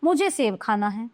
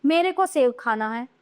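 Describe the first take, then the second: First: "मुझे" leading a lower, settled reading; low-pitched reading from "मुझे"; correct example. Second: "मेरे को" read out with a rising end; "मेरे को" offered as the faulty form, left open; wrong example. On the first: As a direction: state "मुझे सेब खाना है" as the correction. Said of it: "ये शुद्ध हैं". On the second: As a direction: lift the tune after "मेरे को सेब खाना है". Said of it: "ये गलत है". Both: Shown as a demonstration.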